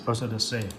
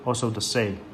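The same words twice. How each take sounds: The two takes are said the same way.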